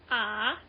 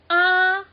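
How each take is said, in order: First: The syllable is said with the third-tone pitch. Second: The syllable is said on a flat, level pitch. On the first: "that's ah, third sound" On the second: "this is flat tone ah"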